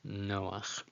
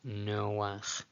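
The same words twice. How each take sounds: The two takes are said the same way.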